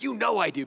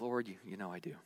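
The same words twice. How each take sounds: First: Pushing the words out a bit louder, unsure underneath; insisting without conviction; a shaky attempt at sounding sure; forced assurance. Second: Much softer, lower, faltering over the words; barely daring to say it; an unsure, trailing reply; hesitant, quiet. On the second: Retold or imitated. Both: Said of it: "very hard to say it with conviction".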